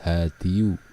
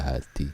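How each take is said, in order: First: The word ends with a full -diyu ending. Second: The word ends with a short -di ending. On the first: "hadiyu susah mengucapkan" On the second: "jadi hadi"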